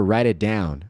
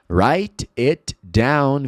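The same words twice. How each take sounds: First: The t becomes a quick tap, like an r. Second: The t is a crisp, separate t sound.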